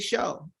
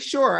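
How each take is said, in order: First: The final r sound is dropped. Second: The word ends with a clear r sound. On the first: "I say show" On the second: "I don't say sure"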